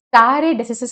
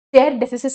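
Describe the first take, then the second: First: The first word has two syllables, like 'staa-ray'. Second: The first word has one syllable, like 'stair'. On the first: "అని కొంతమంది చదువుతారు" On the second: "అని కొంతమంది చదువుతారు"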